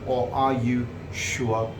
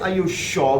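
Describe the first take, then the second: First: It is said in an American accent. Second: It is said in a British accent. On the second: "which is in British pronunciation"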